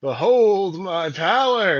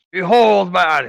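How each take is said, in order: First: High, loud, slow grand proclamation; pompous booming ogre mage. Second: High, loud grand proclamation; pompous booming ogre mage. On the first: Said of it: "is what you're trying to go for here". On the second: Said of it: "who am I kidding? ... I feel weird". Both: Acted.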